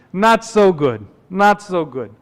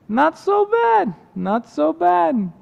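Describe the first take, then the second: First: Put-on downcast complaint in an old-world accent; Dracula-like accent. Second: Put-on very high, slow, lilting accented voice; contented water carrier. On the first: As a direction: grumble it in a put-on accent, falling off. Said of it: "sounds like Count Dracula". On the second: Character now content, echoes his complaint.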